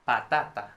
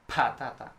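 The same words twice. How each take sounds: First: The p has no puff of air. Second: The p has a strong puff of air. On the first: The speaker calls it right. "try to minimize the aspiration" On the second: The speaker calls it wrong. "not patata"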